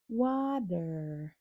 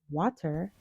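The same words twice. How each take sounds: First: The middle consonant is a soft d sound. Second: The middle consonant is a crisp t sound. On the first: The speaker calls it right. "el sonido de la T suena como una D suave" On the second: The speaker calls it wrong. "no dirías water"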